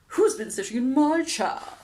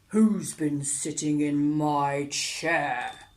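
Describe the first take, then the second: First: It is said in a loud howl. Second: It is said in a deep growl.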